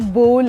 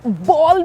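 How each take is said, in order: First: The vowel rhymes with 'goal'. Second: The vowel rhymes with 'doll'. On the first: The speaker calls it right. "वो बोल है" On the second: The speaker calls it wrong. "वो बॉल भी नहीं है"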